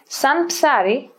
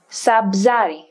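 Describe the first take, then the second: First: The n is kept before a ps sound. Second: The n is dropped before a bz sound.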